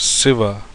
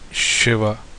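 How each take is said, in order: First: The word begins with an s sound. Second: The word begins with a sh sound. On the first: This is the Telugu pronunciation. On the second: This is the Hindi pronunciation.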